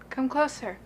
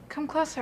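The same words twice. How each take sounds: First: It is said slowly. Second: It is said fast.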